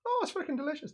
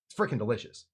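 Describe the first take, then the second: First: High, soft mock Irish accent. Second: Said in the usual way. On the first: Shown as a demonstration. Host showing viewers his awful version, Irish accent.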